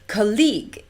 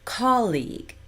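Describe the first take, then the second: First: The stress falls where Singapore English puts it. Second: The stress falls where native speakers put it. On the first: The speaker calls it wrong. "I hear" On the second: The speaker calls it right. "instead of"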